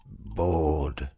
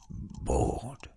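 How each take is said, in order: First: Said in the usual way. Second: Fading to a breathy whisper. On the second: A narrator's reading. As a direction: let the word die away in a whisper. Bored girl sighing repeatedly.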